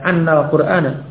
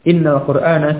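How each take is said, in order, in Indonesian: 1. Kata pertama diawali dengan vokal 'a'. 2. Kata pertama diawali dengan vokal 'i'. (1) "Tidak annal Qur'ana, tidak" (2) "tapi yang kasrah"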